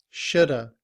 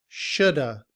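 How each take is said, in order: The two takes are said the same way.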